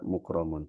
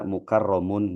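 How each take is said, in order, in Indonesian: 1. Bunyi r di tengah itu tunggal dan pendek. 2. Bunyi r di tengah itu dobel dan panjang. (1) "bisa dibaca mukramun" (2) "Ini bisa dibaca mukarramun"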